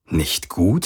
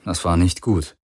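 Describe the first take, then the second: First: "Nicht gut?" with rising question tune; self-questioning. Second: Said in the usual way. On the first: A narrator's reading. He questions his own thought, "gut" rising at the end. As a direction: turn "gut" upward as a question. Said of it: "fragte er sich selbst".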